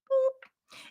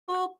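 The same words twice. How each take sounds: First: It is said in a high-pitched voice. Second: It is said in a medium-pitched voice.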